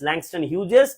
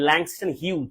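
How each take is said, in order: First: The name ends with an extra syllable. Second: The name ends without an extra syllable. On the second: "অথবা আমরা বলতে পারি Langston হিউজ, দুইটাই বলা যায়"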